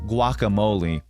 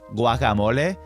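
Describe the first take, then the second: First: The word is said with English pronunciation. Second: The word is said with Spanish pronunciation. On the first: "is guacamole in English" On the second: "guacamole in Spanish"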